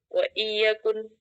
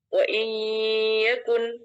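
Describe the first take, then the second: First: The sounds between the words are kept distinct. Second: The sounds between the words are merged together. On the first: "ada yang membaca izhar atau tanpa idgham" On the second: "dengan idgham"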